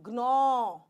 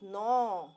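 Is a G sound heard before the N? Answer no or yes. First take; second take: yes; no. First: A G sound is heard before the N. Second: It starts directly with the N sound. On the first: The speaker calls it wrong. "It is not gnaw" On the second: The speaker calls it right. "It is gnaw. Nine number"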